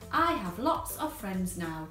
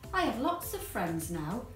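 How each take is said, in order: First: It is said very loudly. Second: It is said at a normal volume.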